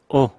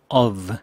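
First: The word is a short o without f. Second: The word is said fully with the f. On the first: "짧게 o" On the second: "표준 발음 of"

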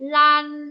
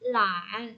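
First: The pitch stays high and level. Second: The pitch dips low and then rises.

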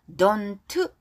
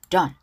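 First: The final t is clearly pronounced. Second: The final t is weak and barely audible. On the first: The speaker calls it wrong. "Don't 이렇게 하지 않고요" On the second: The speaker calls it right. "T로 끝난 단어 약하게 발음한다고 했어요"

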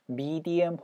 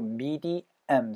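First: The first syllable sounds like 'mee'. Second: The first syllable sounds like 'meh'. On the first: The speaker calls it right. "midi 사운드로 medium 사운드예요" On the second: The speaker calls it wrong. "medium size가 아니고"

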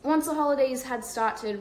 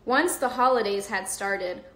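First: It is read in a British accent. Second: It is read in an American accent.

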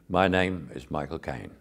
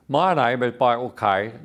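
First: It is said in the speaker's own natural voice. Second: It is said in an exaggerated imitation voice. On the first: This is how the speaker imitates himself. "And my impression of me is" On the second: This is how other people imitate the speaker. "The impression that people give of me is"

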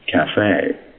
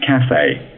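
First: The stress is on the second syllable. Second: The stress is on the first syllable. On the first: This is the American way. "Americans insist on" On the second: This is the British way. "Brits say"

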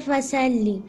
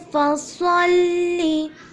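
First: The s sound is plain and light. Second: The s sound is heavy and emphatic. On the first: The speaker calls it wrong. "You don't have to say fasalli" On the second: The speaker calls it right. "You have to say fasalli"

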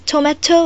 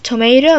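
First: It is said with a British accent. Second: It is said with an American accent. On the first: "it is tomato in British" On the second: "this is tomato in America"

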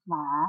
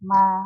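First: The pitch rises through the syllable. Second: The pitch stays level throughout the syllable. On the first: "จัตวา" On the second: "สามัญ"

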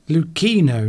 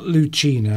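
First: The middle consonant sounds like a 'k'. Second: The middle consonant sounds like 'ch' in 'church'. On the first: The speaker calls it right. "the CH is pronounced like a K" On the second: The speaker calls it wrong. "not Lucchino"

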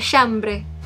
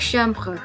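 First: The final e is short and Spanish-like. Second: The final e is held and French-like. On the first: The speaker calls it wrong. "jadi kayak Espanyol, jadi kayak chambre" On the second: The speaker calls it right. "seharusnya e-nya ditahan"

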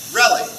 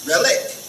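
First: The stress falls on the first syllable. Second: The stress falls on the second syllable. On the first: "it's the first syllable. So the emphasis goes on rel" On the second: "if the emphasis was on the end, on the second syllable, it could have been relic"

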